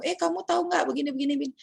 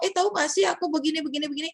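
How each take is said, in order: First: Quick, high, chatty friend voice; casual gossip with a friend. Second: Fast, high, chatty gossip; casual gossip. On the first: Student chatting with a friend, quick casual high voice. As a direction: rattle it off like gossiping with a mate. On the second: Student gossiping with her friend, quick casual high voice. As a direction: toss it off like gossip in the canteen. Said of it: "Tapi tadi dia ngomong". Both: Retold or imitated.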